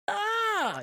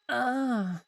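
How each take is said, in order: First: Very high shrieked ah, imitating terror; mock terrified scream. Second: Short, high, unbothered little ah; mock a mildly annoyed gasp, no real fright; mildly miffed ah. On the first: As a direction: squeal it like she's scared stiff. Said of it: "she's fucking terrified". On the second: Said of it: "she's just a bit miffed".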